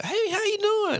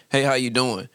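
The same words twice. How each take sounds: First: Very high, slow, corny hello; mock his stiff polite greeting. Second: Said in the usual way. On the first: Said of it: "he'd be like". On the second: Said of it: "I be like".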